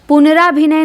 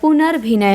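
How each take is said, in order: First: An extra 'aa' vowel follows 'punar'. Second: No vowel comes between 'punar' and 'bhinay'. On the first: The speaker calls it wrong. "पुनराभिनय नहीं होता है" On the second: The speaker calls it right. "पुनर्भिनय होता है"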